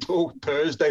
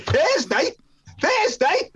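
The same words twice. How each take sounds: First: Said in the usual way. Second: High, loud incredulous echo; shocked disbelief. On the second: Retold or imitated. Teller re-enacts his shock at waiting till Thursday, incredulous. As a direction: squawk it back in mock disbelief.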